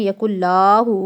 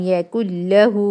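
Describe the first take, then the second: First: The vowel after the double L is long. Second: The vowel after the double L is short. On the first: The speaker calls it wrong. "बच्चे पढ़ते हैं यकुल्लाहु" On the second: The speaker calls it right. "यहाँ पे तो है लाम ज़बर ला"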